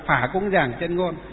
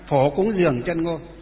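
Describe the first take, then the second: First: The first word is said as 'phả'. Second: The first word is said as 'phổ'. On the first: This is the Northern reading. "Miền Bắc thì là" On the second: This is the Southern reading. "miền Nam là"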